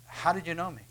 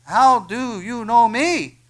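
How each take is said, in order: First: Understated wondering question; lightly voiced Nathanael. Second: Loud, slow, higher amazed question; stretched-out loud astonishment, pitched up; astonished Nathanael. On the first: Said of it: "And Nathanael goes". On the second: Acted. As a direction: cry it out in disbelief. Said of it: "Nathanael said to him".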